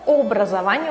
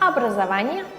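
First: The first vowel is a full, clear o. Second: The first vowel is reduced, not a clear o. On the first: This is how the letter would sound if stressed. "Vurgulu olsaydı obrazovanie olarak okunurdu" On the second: This is how the unstressed letter is actually read. "Ama burada образование olarak okunuyor"

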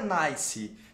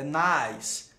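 First: The word ends with an added vowel sound. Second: The word ends cleanly on an s sound. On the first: The speaker calls it wrong. "Não é nice" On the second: The speaker calls it right. "É nice. Você não pronuncia esse E. Como se fosse um S"

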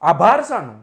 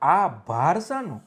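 First: The first word is said without any break. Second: A short pause splits the first word in two. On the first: Why thank me? "આપણે કોઈને આભાર વ્યક્ત કરીએ" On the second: What is this weight? "વજનની દ્રષ્ટિએ વાત છે"

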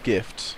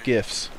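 First: The t sound is clearly pronounced in the word. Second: The t sound is dropped from the word.

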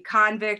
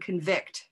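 First: The stress is on the first syllable. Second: The stress is on the second syllable. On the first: It is a noun: a person in prison. "Two-syllable nouns on the first syllable" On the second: It is a verb: to find someone guilty. "two-syllable verb probably on the second syllable"

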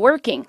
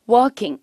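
First: It is said with an American accent. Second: It is said with a British accent. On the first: "미국 사람들이 그냥 working 할 수도 있고" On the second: "영국 발음이라고 하면 working 이라고"

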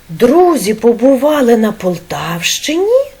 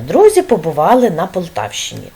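First: The voice rises at the end like a question. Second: The voice falls at the end like a statement. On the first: It asks whether the friends were there. "Ми запитаємо" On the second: It simply tells where the friends were. "Воно нам просто розповідає"

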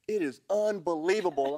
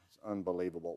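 First: It is said in a bright, delighted tone. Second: It is said in a gloomy, dismayed tone. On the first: Things are wonderful. "And they're all happy" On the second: Things are terrible. "well, everybody would scatter"

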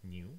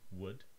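First: The pitch starts low and sinks lower. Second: The pitch starts mid and climbs very high. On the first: "The second word has a low tone" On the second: "starts somewhere in the middle and then goes really high"

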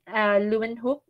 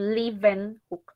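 First: The w is pronounced as a w sound. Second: The w is pronounced as a v sound. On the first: The speaker calls it wrong. "it's not Leeuwenhoek" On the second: The speaker calls it right. "it's actually Leeuwenhoek. ... the W is pronounced as V"

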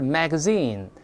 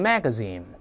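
First: The stress is on the last syllable. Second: The stress is on the first syllable.

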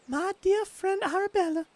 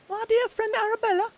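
First: It is read in the speaker's usual accent. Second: It is read in a put-on British female accent.

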